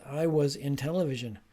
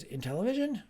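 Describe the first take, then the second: First: Said in the usual way. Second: "In television" echoed with high, querying pitch; questioning echo. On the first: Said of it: "the student says". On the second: Acted. Teacher repeating the student's mistake, "In television" as a high question. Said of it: "So repeating the mistake".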